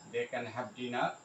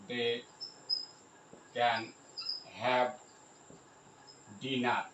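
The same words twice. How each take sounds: First: Said in the usual way. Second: Spaced-out dictation; word by word. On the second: Shown as a demonstration. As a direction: pause at length after each word. Spelling out example while writing.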